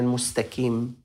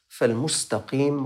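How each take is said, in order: First: The middle consonant is a plain k sound. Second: The middle consonant is a deep throaty q sound. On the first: The speaker calls it wrong. "لا يصح هذا الأمر" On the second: The speaker calls it right. "حرف الكاف بدلا من حرف القاف"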